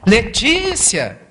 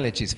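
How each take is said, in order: First: The name is shouted forcefully. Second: The name is whispered very softly. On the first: A jolt that cannot be ignored. "vai lá dar um chacoalhão nela" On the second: A gentle first call that is easy to miss. "ela sussurra"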